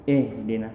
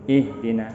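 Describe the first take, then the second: No difference in how they are said.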